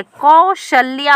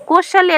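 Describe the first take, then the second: First: कौशल्या said slowly with a drawn-out lya, kau-shal-lyaa; correct form, slow. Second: कौशल्या said quickly as kau-shal-ya; wrong form. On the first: शिक्षक सही रूप धीरे-धीरे बताते हुए: कौशल्या. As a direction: spell out the right कौशल्या slowly. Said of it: "होती है". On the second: शिक्षक गलत रूप बताते हुए: कौशल्या, जल्दी से. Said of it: "नहीं होती है". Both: Shown as a demonstration.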